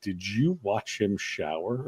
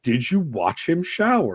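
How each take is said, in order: First: Quiet mock question. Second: Louder mock question.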